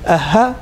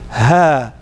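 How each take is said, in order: First: The vowel is short. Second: The vowel is lengthened. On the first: The speaker calls it wrong. "instead of saying a ha" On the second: The speaker calls it right. "you would say ha"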